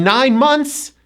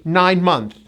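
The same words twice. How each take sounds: First: "months" with its final S sounded, slowly; plural months. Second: "month" ending on TH, no S; learner's missing S. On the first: Shown as a demonstration. Teacher shows learners the right form, "months" with final S. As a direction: finish "months" on an audible S. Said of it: "that's a grammar mistake". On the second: Retold or imitated. Teacher imitates ESL speakers' mistake, "month" without its S. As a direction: drop the plural S from "month". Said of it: "many E S L speakers".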